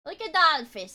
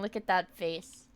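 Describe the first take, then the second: First: "that" punched higher and louder; stress on THAT. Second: Said in the usual way. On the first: Shown as a demonstration. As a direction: lean on "that" in "Look at that face". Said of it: "repeats phrase louder". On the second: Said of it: "repeats phrase".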